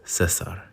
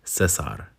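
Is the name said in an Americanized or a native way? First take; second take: native; native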